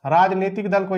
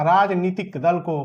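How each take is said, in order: First: Said in the usual way. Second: "राजनीतिक दल को" said slowly, word by word; slow emphasis. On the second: Shown as a demonstration. Teacher repeating "राजनीतिक दल को" slowly for students to memorise. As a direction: drill "राजनीतिक दल को" in slowly so it sticks. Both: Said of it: "याद रखना".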